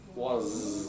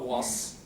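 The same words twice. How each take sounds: First: The word ends with a voiced z sound. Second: The word ends with a voiceless s sound. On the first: The speaker calls it right. "That's a z as well. These are voiced, not unvoiced" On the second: The speaker calls it wrong. "Not was"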